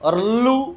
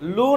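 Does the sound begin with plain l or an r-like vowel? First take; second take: r-like vowel; plain l. First: An r-like vowel comes before the l. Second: It starts directly with a plain l. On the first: The speaker calls it right. "हा तर उच्चार बरोबर आहे" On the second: The speaker calls it wrong. "लू नाही"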